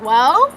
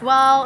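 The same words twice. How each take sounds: First: "Well?" rising sharply at the end; questioning "Well?". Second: Said in the usual way. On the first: Retold or imitated. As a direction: throw "Well?" back as a challenge. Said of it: "and I was like". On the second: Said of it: "was like".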